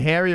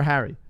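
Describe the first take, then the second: First: Harry said as "hairy"; "Harry" with the vowel of "hair"; contrasted pronunciation. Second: Harry with a short "a" as in "hat"; "Harry" with an open "a"; contrasted pronunciation. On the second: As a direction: say "Harry" with the "cat" vowel. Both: Shown as a demonstration. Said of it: "Harry or Harry".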